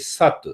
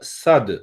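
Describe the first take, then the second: First: The word ends with a voiceless t sound. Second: The word ends with a voiced d sound. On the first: This is the South Indian way of saying it. "in South Indian Sanskrit, we say Sat. It becomes T" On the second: This is the North Indian way of saying it. "in North India, we normally speak uh, Sad"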